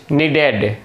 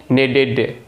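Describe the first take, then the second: No difference in how they are said.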